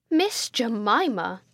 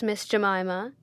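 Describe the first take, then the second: First: MISS JEMIMA slowly drawn out, each word weighty; exclaimed in capitals. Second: Restrained, icy address; awful coldness. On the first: Headmistress to her sister, "Miss Jemima" exclaimed in the largest capitals. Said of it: "exclaimed Miss Pinkerton, in the largest capitals". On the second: Headmistress questioning her timid sister, with awful coldness. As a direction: address her by name with cool disapproval. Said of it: "said Miss Pinkerton with awful coldness". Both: A narrator's reading.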